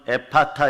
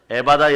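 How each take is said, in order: First: The word is said with a p and t. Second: The word is said with a b and d. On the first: This is the original pronunciation. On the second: This is the familiar local form.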